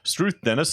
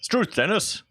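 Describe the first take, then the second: First: It is said in the speaker's normal voice. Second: It is said in a put-on character voice. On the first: "I'm not doing voices" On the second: "I got to do a Dingo voice"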